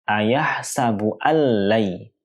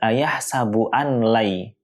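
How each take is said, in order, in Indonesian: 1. Bunyi n menyatu sepenuhnya ke dalam l. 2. Bunyi n diucapkan terpisah sebelum l. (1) "tapi dibaca dengan" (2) "tidak dibaca dengan"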